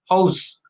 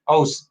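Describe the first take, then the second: First: The word starts with a clear h sound. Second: The word starts without any h sound. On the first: "we pronounce it by house" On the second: "they drop the H's"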